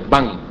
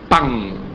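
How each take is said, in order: First: The word begins with a B sound. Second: The word begins with a P sound. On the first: This is how Arabic speakers say it. "te dice pan" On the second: This is the standard way to say it. "El árabe no te dice pan"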